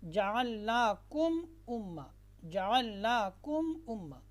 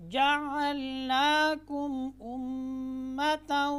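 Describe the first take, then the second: First: जअलनाकुम with the meem merged, no clear meem, spoken quickly; wrong reading. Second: Slow recited जअलनाकुम उम्मतन with the meem clearly sounded, higher. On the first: Teacher shows students the wrong way, meem not clear. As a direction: say जअलनाकुम उम्मा blending the meem into the next letter. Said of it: "ऐसे नहीं पढ़ना". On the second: Teacher demonstrates correct recitation to students. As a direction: chant जअलनाकुम slowly, meem pronounced openly. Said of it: "ऐसे पढ़ना है". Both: Shown as a demonstration.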